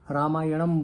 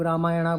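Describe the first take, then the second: First: The word ends with an added 'am' syllable. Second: The word ends with an added 'a' vowel. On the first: "कुछ लोग रामायणम बोलते हैं" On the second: "कुछ लोग रामायणा बोलते हैं"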